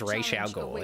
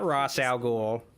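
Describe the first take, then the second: First: The first word sounds like neither Ross nor Raz. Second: The first word sounds like 'Ross'. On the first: The speaker calls it right. "the correct way to pronounce Ra's al Ghul's name" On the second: The speaker calls it wrong. "It's not Ross al Ghul"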